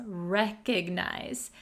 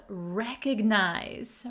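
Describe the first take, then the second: The two takes are said the same way.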